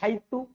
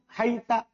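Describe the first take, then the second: First: The word ends with an u vowel. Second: The word ends with an a vowel. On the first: "haitu bidong" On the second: "haita dibaca fathah"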